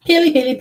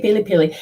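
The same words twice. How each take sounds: First: Bright, higher call of the name; calling her name brightly. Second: Said in the usual way. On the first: Real, not acted. Calling out to the sitter.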